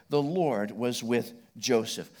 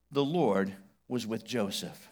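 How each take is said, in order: First: Slow, weight on The; slow repeat. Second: Slow, stressing Lord; slow emphasis. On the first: Preacher repeating the phrase to the congregation, slow. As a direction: repeat it slowly, leaning on The. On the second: Preacher reading the phrase to the congregation, slow emphasis. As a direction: lean on Lord, slowly. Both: Shown as a demonstration.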